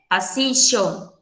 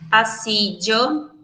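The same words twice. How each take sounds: First: The double L sounds like an sh sound. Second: The double L sounds like a dj sound. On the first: "com som de X" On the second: "A gente pode pronunciar ele como se tivesse D J"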